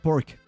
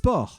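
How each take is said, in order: First: The final C sound is pronounced. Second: The final C sound is silent. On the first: The speaker calls it wrong. "It's not pork" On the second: The speaker calls it right. "it's a C. And it's silent"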